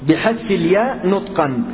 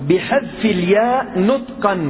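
The two takes are said the same way.

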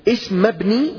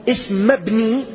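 The two takes are said the same way.

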